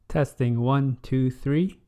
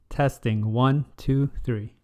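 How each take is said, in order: The two takes are said the same way.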